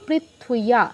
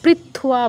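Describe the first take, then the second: First: A full 'ee-ya' sound follows prithv. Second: It has no 'ee-ya' sound after prithv. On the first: The speaker calls it right. "এরপর ইও পুরোপুরি, তার সাথে আকার" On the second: The speaker calls it wrong. "পৃথ্বা বলবো না"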